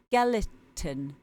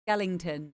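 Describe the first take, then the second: First: The word has no extra 'ng' sound inside. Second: The word has an extra 'ng' sound inside. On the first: The speaker calls it right. "It's skeleton" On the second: The speaker calls it wrong. "Not Skellington, apparently"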